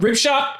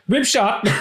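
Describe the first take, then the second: First: Excited correction. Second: Shouted correction. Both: Acted.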